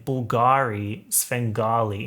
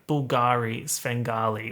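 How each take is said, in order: First: New York accent. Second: Australian accent. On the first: YouTuber showing how the rapper says it, New York accent. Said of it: "like, New York accent". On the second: YouTuber showing why it sounds bad, Australian accent. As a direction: say the rhyme with Australian vowels. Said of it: "in an Australian accent". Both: Shown as a demonstration.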